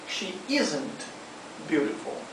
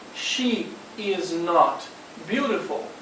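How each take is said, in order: First: Is and not are joined into isn't. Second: Is and not are said as separate words. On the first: "nós podemos contrair o is com o not e ficaria isn't" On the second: "ao invés de dizermos"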